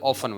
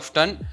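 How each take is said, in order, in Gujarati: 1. T અવાજ બોલાતો નથી. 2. T અવાજ બોલાય છે. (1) "બ્રિટિશ ઇંગ્લિશની અંદર ઓફન બોલાય છે" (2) "અમેરિકામાં ઓફટન બોલે છે"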